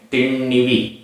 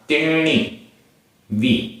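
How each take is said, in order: First: The two words are run together as one. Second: The two words are said separately. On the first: "तिण्णिवी ऐसा भी कह सकते हैं" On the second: "तिण्णी और वी अलग अलग बोले"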